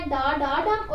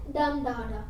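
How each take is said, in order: First: डा डा unstressed, final डम stressed; anapaest stress. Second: First डम stressed, डा डा unstressed; dactyl stress. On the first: Teacher revising anapaest, stress on the last syllable डम. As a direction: save the weight for the closing डम. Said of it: "पहले दो unstressed थे". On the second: Teacher revising dactyl, stress on the first syllable डम. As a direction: start on the weighted डम, then fall away. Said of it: "पहला stressed है और बाकी दो unstressed". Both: Shown as a demonstration.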